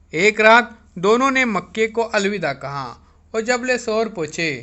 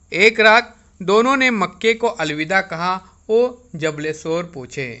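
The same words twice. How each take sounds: The two takes are said the same way.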